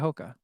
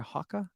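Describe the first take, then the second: First: It is said the usual American way. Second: It is said the way British people say it.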